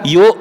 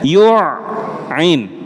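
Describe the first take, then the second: First: The middle consonant is a plain glottal stop. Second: The middle consonant is a deep throat sound. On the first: The speaker calls it wrong. "saya sering mendengar yuk. Nah, yuk ini berarti hamzah" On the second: The speaker calls it right. "Harusnya yu'in"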